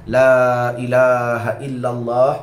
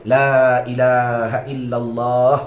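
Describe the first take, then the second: Both takes have the same delivery.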